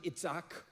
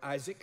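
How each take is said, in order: First: The name is said with a non-English pronunciation. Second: The name is said with the English pronunciation.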